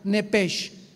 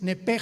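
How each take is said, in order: First: The word ends with a hissing sh sound. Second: The word ends with a throaty h sound. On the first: "como suena nepesh" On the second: "se pronuncia en el hebreo como J"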